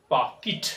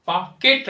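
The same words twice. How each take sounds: First: "पॉकेट" as "paa-kit"; short i ending "पॉकेट"; correct pronunciation. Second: Louder "पॉकेट" as "paa-ket"; wrong pronunciation. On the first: Teacher correcting it, "पॉकेट" as "paa-kit". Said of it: "इसको हम लोग पढ़ेंगे". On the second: Teacher warning against it, "पॉकेट" as "paa-ket". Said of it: "पॉकेट नहीं". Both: Shown as a demonstration.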